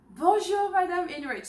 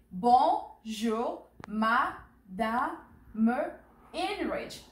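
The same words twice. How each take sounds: First: "Bonjour, Madame" run together, higher in pitch; natural flowing greeting. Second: "Bonjour, Madame" in slow, separated syllables. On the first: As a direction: say "Bonjour, Madame" as one lively phrase. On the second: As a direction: model "Bonjour, Madame" one syllable at a time for repeating. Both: Shown as a demonstration. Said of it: "So repeat after me".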